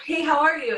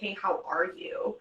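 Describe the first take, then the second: First: The greeting sounds plain and neutral. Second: The greeting sounds loaded and negative.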